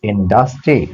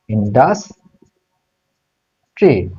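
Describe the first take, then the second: First: Said in the usual way. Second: ইন্ডাস্ট্রি slowly, long pause before the final ট্রি; syllable by syllable. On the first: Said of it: "দেখো বানান". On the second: Shown as a demonstration. Teacher giving students the answer, ইন্ডাস্ট্রি broken up slowly. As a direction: draw ইন্ডাস্ট্রি out in parts. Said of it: "syllable করে দিচ্ছি।".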